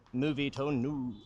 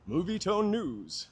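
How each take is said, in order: First: Slow, lower retry of the newsreel voice; lower newsreel announcer. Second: Put-on higher, slow old newsreel announcer. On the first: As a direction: try the Movietone announcer again, lower. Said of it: "I'm not gonna keep doing it". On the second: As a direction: boom it out like a Movietone newsreel. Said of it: "that's not the voice at all, but it's much thinner". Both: Shown as a demonstration.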